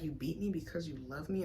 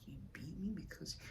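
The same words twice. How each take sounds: First: Said in the usual way. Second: Breathy unvoiced whisper, trailing off; whispered disbelief. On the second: Questioning her father's words in her head, whispered. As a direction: whisper it in stunned confusion.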